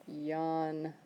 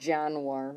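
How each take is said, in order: First: The word begins with a y sound. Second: The word does not begin with a y sound. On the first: The speaker calls it right. "Jan, like I'm tired, so I yawn" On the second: The speaker calls it wrong. "it's not Januar or something"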